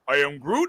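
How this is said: It is said in a sad, downcast tone. "this time sad"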